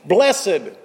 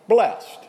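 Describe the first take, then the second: First: The word is said in its solemn, pious form. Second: The word is said in its ordinary everyday form. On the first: It is the reading used for scripture. "we say when we read it in the context of the Beatitudes" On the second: It is the reading used in daily speech. "most of the rest of the time we just say blessed"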